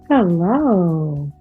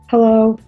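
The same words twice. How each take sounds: First: It is said in a flirtatious tone. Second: It is said in an annoyed, curt tone. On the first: The speaker is romantically interested. "Sort of flirtatious" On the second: The speaker wants to be left alone. "Don't bother me"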